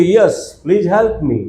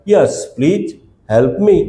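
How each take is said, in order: First: Very slow, the whole sentence in one breath; slow model sentence. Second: Broken into two chunks with a pause after please; chunked repeat. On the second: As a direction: split it for learners to repeat. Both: Shown as a demonstration. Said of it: "શું કહેવાય?".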